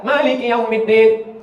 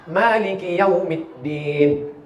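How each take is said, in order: First: Maliki Yaumiddin chanted slowly; slow recitation. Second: Maliki Yaumiddin drawn out very slowly; corrected recitation. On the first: Preacher reciting the verse, slow. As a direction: recite it with care. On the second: Preacher modelling the right way, very slow. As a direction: lengthen each syllable. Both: Shown as a demonstration. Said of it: "Kesalahan orang satu".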